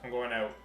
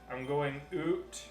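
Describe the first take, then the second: First: Out is said with a normal ow vowel. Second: Out is said like oot, stereotyped Canadian.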